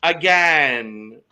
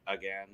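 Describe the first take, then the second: First: Loud, drawn-out "again"; emphatic punchline. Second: Very soft, low muttered aside; under her breath. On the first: Pretend. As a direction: land it big and stretched. Hammed punchline about her age. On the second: Retold or imitated. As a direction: imitate a sly remark under the breath. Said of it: "under her breath was like".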